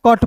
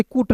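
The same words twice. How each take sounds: First: कट with a short uh vowel; short open vowel in कट, no oo; correct reading of cut. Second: कुट with an oo vowel; rounded oo in कुट, as spelled; wrong reading of cut. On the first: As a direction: pronounce cut as कट, the u sounding like a short a. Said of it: "पढ़ते हैं". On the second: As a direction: misread cut as कुट, sounding the u as oo. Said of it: "नहीं पढ़ते हैं". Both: Shown as a demonstration.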